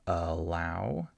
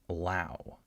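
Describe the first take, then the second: First: The first syllable carries some stress and fuller vowel. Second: The first syllable is rushed and reduced to schwa. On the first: The speaker calls it wrong. "we don't have allow" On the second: The speaker calls it right. "I'm not stressing this syllable at all"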